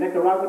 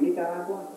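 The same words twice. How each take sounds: First: It is said with an English accent. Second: It is said with a Spanish accent.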